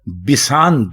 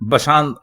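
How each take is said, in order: First: The first syllable has the vowel i. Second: The first syllable has the vowel a. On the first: The speaker calls it right. "बिसांद दुरुस्त है" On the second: The speaker calls it wrong. "जिसमें आप जबर लगाते हैं बे के ऊपर"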